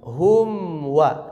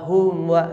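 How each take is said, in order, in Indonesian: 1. Huruf m diucapkan dengan bibir tertutup rapat. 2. Huruf m diucapkan dengan bibir tidak sepenuhnya tertutup. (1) "pastikan disempurnakan, dirapatkan" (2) "terkadang mimnya tidak jadi izhar, malah jadi ikhfa ya"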